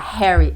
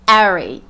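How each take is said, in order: First: The initial H sound is pronounced. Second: The initial H sound is silent. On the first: "ele não fala" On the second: "ele fala Harry. Então, o H acaba sendo mudo"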